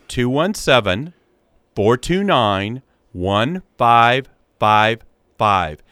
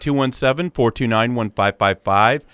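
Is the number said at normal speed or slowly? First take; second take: slowly; normal speed. First: The number is said slowly. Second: The number is said at normal speed.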